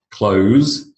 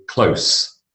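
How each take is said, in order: First: "close" ending in a voiced z; verb "close". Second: "close" ending in a voiceless s; adjective "close". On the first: Teacher models the verb for class, z ending on "close". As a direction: say "close" as kloze, to shut. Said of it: "the verb". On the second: Teacher models the adjective for class, s ending on "close". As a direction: say "close" as klohss, as in near. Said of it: "and the adjective". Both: Shown as a demonstration.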